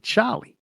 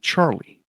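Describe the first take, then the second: First: It is said in a thick New York accent. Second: It is said in a plain, standard accent. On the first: "if you have a thick New York accent, you say Charlie" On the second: "supposed to be Charlie if you don't have a really thick New York accent"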